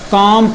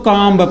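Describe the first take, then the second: First: The word ends on m with no b sound. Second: The word ends with an audible b sound. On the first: The speaker calls it right. "इसे हम क्या पढ़ेंगे? काम पढ़ेंगे" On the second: The speaker calls it wrong. "अगर हम इसे काम्ब पढ़ें समझो हम गलत पढ़ रहे हैं"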